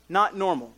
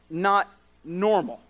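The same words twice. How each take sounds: First: Said in the usual way. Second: Not normal, slowed right down and leaned on; stressed not normal. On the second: Shown as a demonstration. Preacher slows down to press not normal on the congregation. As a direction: drag out not normal to make it land. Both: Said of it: "we do need to think about".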